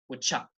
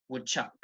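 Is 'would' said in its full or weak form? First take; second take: weak; weak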